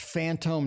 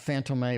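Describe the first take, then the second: First: The name ends without an extra vowel sound. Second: The name ends with an added 'ay' sound. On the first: The speaker calls it right. "they said it's Phantom" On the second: The speaker calls it wrong. "not Phantom A"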